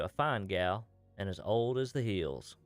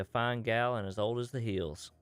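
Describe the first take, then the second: First: There is a pause after gal. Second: It flows without a pause after gal.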